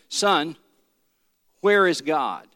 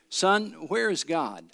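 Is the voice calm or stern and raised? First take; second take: stern; calm. First: It is said louder and more sternly. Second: It is said in a calm, normal voice.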